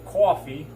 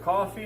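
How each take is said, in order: First: It is said in a Brooklyn New York accent. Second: It is said in a plain, neutral accent.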